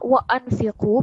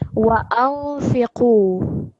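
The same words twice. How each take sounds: First: The n is pronounced clearly and fully. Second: The n is hidden with a nasal sound. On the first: The speaker calls it wrong. "that would make it a clear noon" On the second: The speaker calls it right. "we're going to read it with a nasal sound"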